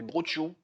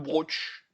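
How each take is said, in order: First: The word ends with its final vowel sound. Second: The word ends without its final vowel sound. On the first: The speaker calls it right. "Non, c'est brochiou" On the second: The speaker calls it wrong. "il faut jamais prononcer la dernière lettre"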